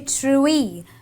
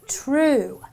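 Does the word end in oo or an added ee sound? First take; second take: added ee; oo. First: An extra ee sound follows the vowel. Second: The word ends on a plain oo sound. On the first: The speaker calls it wrong. "I don't say true-y" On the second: The speaker calls it right. "I say true"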